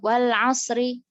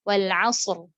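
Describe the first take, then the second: First: The final word ends with a short vowel. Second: The final word ends on a bare consonant. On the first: The speaker calls it wrong. "kita berhenti tapi harokatnya dibaca" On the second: The speaker calls it right. "Harusnya kan disukunkan"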